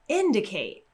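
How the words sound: It is said excitedly with a bigger pitch drop. "if I was really excited"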